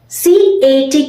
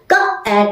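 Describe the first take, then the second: First: Each letter is spoken by its alphabet name. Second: Each letter is spoken as its phonic sound. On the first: "was the old method of teaching" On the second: "Now it's K-at a cat. C sounds K"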